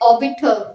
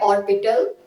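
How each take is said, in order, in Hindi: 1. r की ध्वनि silent रहती है। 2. r की ध्वनि साफ़ बोली जाती है।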